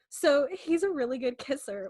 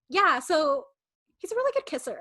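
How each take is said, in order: First: It is read in her plain own voice. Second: It is acted in a fifteen-year-old character voice.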